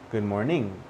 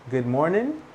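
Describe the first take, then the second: First: GOOD MORNING ending "ning", lower, falling. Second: GOOD MORNING ending "nin", tune rising. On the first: Teacher recapping both ways, MORNING as falling "mor-ning". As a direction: drop the end of MORNING onto NG. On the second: Teacher recapping both ways, MORNING as rising "mor-nin". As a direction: lift the end of MORNING on a plain N. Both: Shown as a demonstration. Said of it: "two different ways".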